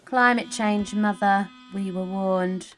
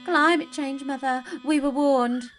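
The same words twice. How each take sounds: First: It is said flatly, with little emotion. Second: It is said with strong fear and emotion.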